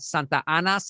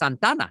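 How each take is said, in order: First: The words are said fully as two separate words. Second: The two words run together into one word.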